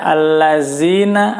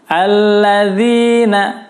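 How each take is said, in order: First: The middle consonant is a z sound. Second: The middle consonant is a soft th sound. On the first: The speaker calls it wrong. "jangan sampai membaca allazina" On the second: The speaker calls it right. "Lidahnya dikeluarkan, diletakkan antara gigi atas dan gigi bawah"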